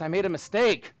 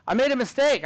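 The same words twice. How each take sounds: First: Said in the usual way. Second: Mistake said louder with a higher fall; emphatic admission. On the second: Shown as a demonstration. Teacher to class, admitting the Chromebook mistake emphatically. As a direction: stress the admission playfully.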